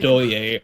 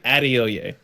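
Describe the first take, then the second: First: The name is shortened, dropping a syllable. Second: Every syllable of the name is pronounced. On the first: The speaker calls it wrong. "mispronounce my name on purpose to make it easier for other people" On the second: The speaker calls it right. "pronounce every syllable"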